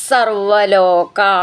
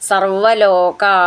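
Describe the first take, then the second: No difference in how they are said.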